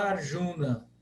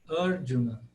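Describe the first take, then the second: First: The stress is on the second syllable. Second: The stress is on the first syllable. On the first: This is how Brazilians tend to say it. The speaker calls it wrong. "a nossa tendência é pronunciar todas as palavras como paroxítonas" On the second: This is the original Sanskrit pronunciation. The speaker calls it right. "e é proparoxítona"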